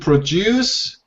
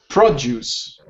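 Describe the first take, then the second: First: The stress is on the second syllable. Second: The stress is on the first syllable. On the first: It is used as a verb. "it's correct" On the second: It is used as a noun. "the noun"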